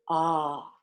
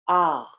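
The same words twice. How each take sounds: First: The voice is full and breath-supported. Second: The voice is tight, sharp and throaty.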